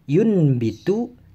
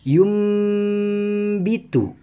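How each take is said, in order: First: The nasal before the b sounds like n. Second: The nasal before the b sounds like m. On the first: The speaker calls it wrong. "bukan dibaca yunbitu" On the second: The speaker calls it right. "tapi dibaca yumbitu"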